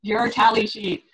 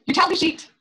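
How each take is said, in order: First: "tally" stressed, spoken slowly with a falling end; slow emphatic repeat. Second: "tally" lifted high and bright; stress on tally. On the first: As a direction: drag out "Your tally sheet" so it sinks in. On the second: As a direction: raise your pitch on "tally" to flag the key point. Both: Shown as a demonstration. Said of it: "what's the most important thing I'm saying here".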